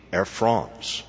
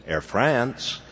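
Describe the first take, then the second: First: "Air France" with a broad "ah", like Frahnce; French pronunciation. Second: Put-on lightly drawn-out Southern accent. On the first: Acted. Disturbed Frenchman correcting the office manager, "Air France" said as Frahnce. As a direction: say "Air France" slowly, vowel as in "fronts". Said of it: "The proper Frenchman was disturbed". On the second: Receptionist answering the airline's office phone, Southern accent. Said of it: "in her charming Southern accent".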